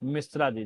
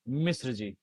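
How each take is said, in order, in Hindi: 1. Surname लंबे 'aa' स्वर पर खत्म होता है। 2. सरनेम 'r' व्यंजन पर खत्म होता है। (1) "नाइन्टी नाइन परसेंट इसका उच्चारण गलत करते हैं। क्या बोलते हैं?" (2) "जबकि बोलना क्या चाहिए?"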